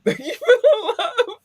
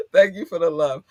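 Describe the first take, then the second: First: Squealed, high and loud thank you; overjoyed squeal of thanks; high gushing thanks. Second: Near tears. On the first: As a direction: gush it up high with delight. Emotional thanks to listeners. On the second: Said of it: "hold back the tears". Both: Real, not acted.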